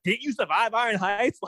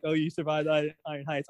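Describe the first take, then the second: First: Didn't you survive Iron Heights asked with a rising, disbelieving lilt; incredulous rising question. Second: Said in the usual way. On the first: Retold or imitated. Iris asking Allegra in disbelief, rising question. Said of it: "I even loved how she said that". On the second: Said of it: "she didn't even say it like that".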